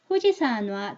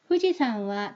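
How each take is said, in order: First: The n links forward, giving nwa. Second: The n stays separate, giving wa. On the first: The speaker calls it wrong. "이 와가 놔가 돼 버리잖아요" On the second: The speaker calls it right. "이렇게 후지산와 라고 발음을 해주셔야 돼요"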